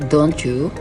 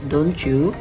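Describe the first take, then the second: First: The t and y blend into ch. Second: The same.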